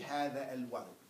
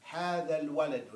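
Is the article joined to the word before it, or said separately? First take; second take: separately; joined. First: The article starts separately after a break. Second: The article runs smoothly into the preceding word. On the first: The speaker calls it wrong. "Don't say hada al walad. That's not how we read and talk" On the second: The speaker calls it right. "you read like you're going to talk"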